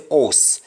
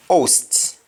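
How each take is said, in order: First: "host" with no H and no final T; Patois "host", ending on the S; Jamaican pronunciation. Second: Said in the usual way. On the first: Shown as a demonstration. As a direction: say "host" as "ohs". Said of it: "we say host". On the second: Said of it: "we don't pronounce the T".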